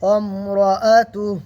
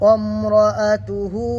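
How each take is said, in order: First: The word ends on a bare h sound. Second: The word ends with a full hu syllable. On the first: The reader pauses at this word. "যখন হাটা সাকিন করবো তখন কীভাবে পড়বো?" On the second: The reader continues without pausing. "আর এখানে যখন থামবো না তখন কি করব?"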